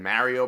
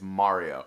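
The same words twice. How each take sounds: First: It is said with a Queens, New York accent. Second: It is said with a standard, non-New York pronunciation. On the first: The speaker calls it wrong. "it's my accent. I'm from Queens, New York. ... that's wrong" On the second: The speaker calls it right. "Apparently it's Mario"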